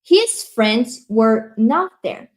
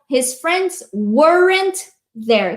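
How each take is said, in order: First: The words were not are said separately. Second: The words were not merge into weren't.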